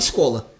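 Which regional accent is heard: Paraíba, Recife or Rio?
Paraíba. The s is a plain s sound. "Mas em outras palavras não, a gente fala escola"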